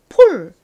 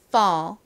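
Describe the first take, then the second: First: The vowel is a rounded Korean 'o' sound. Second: The vowel is an open 'uh' sound. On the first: The speaker calls it wrong. "한국식으로는 폴 이렇게 쓰는 경우가 많은데" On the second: The speaker calls it right. "A가 어에 가깝게 발음이 나서 ... 미국식 발음으로 fall"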